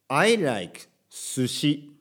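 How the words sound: Sushi is said with Japanese pitch and sounds. The speaker calls it wrong.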